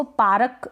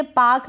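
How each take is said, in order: First: पारक as paa-ruk, two syllables; over-pronounce the R in पारक; पारक with a vowel after a full R; wrong full R. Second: पाक as one syllable, no R; पाक with a long vowel straight into K; silent R. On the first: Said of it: "तो गलत हो जाएगा". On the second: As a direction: drop the R in पाक. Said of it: "इसको पारक बोलेंगे तो गलत". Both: Shown as a demonstration.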